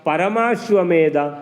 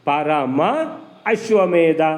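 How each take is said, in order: First: The words merge into one with a long vowel. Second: The two words are said separately.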